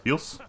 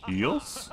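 First: Said in the usual way. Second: "Heals?" very high with a rising tune; pleading repeat. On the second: Real, not acted. Asks again, no reply.

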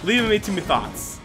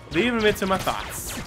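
The two takes are said the same way.

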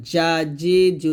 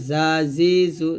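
First: জা, জি, জু with a hard English-style j; mid-tongue j. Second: জা, জি, জু with a buzzing z; tongue to lower teeth for জা, জি, জু. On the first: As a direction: middle of the tongue raised for জা, জি, জু. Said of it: "জিব্বার মধ্যখানে উপর দাঁতের". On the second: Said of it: "জিব্বাটা নিচে দাঁতে লাগবে". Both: Shown as a demonstration.

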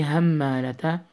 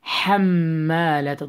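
First: همالة begun with a plain airy H; wrong ha. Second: حمالة begun with a tight mid-throat ح. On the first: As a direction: use an English H in همالة. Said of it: "Don't say". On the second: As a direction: squeeze the ح of حمالة. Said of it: "ha from the middle". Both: Shown as a demonstration.

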